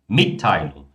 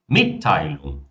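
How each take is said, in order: Both takes have the same delivery.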